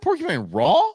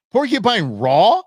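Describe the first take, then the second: First: Mocking echo. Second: Incredulous question. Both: Real, not acted. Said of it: "Did you really say that?".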